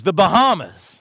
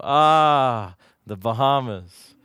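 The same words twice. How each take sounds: First: Put-on a higher, louder little girl's triumphant answer. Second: Low, slow, longing echo of the word; dreamy sigh. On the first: Little girl answering her daddy, higher and louder. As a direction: pipe it up like a proud four-year-old. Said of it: "And she goes". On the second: Retold or imitated. Preacher echoing the girl, low and slow and dreamy. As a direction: savour it like a dream vacation. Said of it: "And I go".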